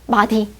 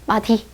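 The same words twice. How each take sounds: Both takes have the same delivery.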